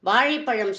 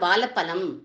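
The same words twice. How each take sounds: First: It is said with the retroflex 'zh' sound. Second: It is said with a plain 'l' sound. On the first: The speaker calls it right. "வாழைப்பழம் சொல்லுங்கோ" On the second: The speaker calls it wrong. "ழாவை சாதாரணமா யாருமே சரியா உச்சரிக்க மாட்டா"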